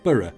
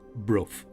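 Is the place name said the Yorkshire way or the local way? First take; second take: Yorkshire; local. First: The name is said the speaker's Yorkshire way. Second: The name is said the local way. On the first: This is how an outsider would guess it. The speaker calls it wrong. "being a Yorkshire lad, I would have pronounced it" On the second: This is how local people say it. The speaker calls it right. "I've been reliably informed that it is pronounced"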